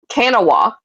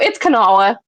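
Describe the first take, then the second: First: The name is said the way an Ohio outsider says it. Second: The name is said the way locals say it. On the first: This is how people from outside say it. The speaker calls it wrong. "my roommate was from Ohio, and sh- they call it uh" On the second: This is how it is really said. The speaker calls it right. "But no, it's Kanawha. Trust me"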